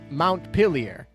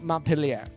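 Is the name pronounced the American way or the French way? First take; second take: American; French. First: The name is pronounced with an American pronunciation. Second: The name is pronounced with a French pronunciation. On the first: This is how the Vermont city is called. "in that city, they call it M- Montpelier" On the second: This is how the French city is called. "in France, this is like Montpellier"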